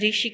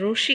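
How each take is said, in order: First: The first syllable is pronounced 'ri'. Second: The first syllable is pronounced 'ru'. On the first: This is the Hindi way of saying it. The speaker calls it right. "Hindi में हमको री बोलना है" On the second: This is the Gujarati way of saying it. The speaker calls it wrong. "Gujarati में उसको रू बोलते हैं"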